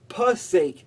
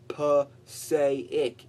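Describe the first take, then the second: First: The name ends in one syllable, rhyming with 'sake'. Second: The name ends in two syllables, 'say-ic'. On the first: The speaker calls it right. "It's like, oh, God's sake, p-sake" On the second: The speaker calls it wrong. "you do not say p-say-ic"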